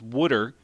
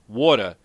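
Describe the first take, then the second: First: It is said in a Philadelphia accent. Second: It is said in a New York accent. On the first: "there's water in Philly" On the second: "it's water in New York"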